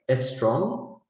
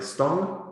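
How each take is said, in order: First: An extra vowel comes before the opening s. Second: The r is left out of the cluster. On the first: "if I say is strong, it's still okay" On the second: "if I say stong instead of strong, people might misunderstand"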